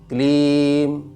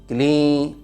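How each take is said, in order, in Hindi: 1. अंतिम म पूरा और ज़ोर से बोला जाता है। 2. ई लंबी खिंची हुई है, पूरा म नहीं है। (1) "माँ पे ज़्यादा जोर दे रहे थे" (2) "जो ई है उसको थोड़ा सा उच्चारण में लंबा खींचते हुए मीठा कर दिया"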